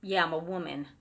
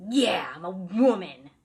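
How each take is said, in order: First: A lighter imitation of the gruff man; mock gruff answer. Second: Loud, slow, gruff man's voice; husky deeper voice. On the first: Retelling how the man answered, lightly voiced gruff. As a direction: toss it off as the grumpy spirit, lightly. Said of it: "he was like". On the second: Retold or imitated. Angry spirit answers the friends through the sister, loud and gruff. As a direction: bark it back like an angry old spirit. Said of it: "answering in a husky, deeper voice".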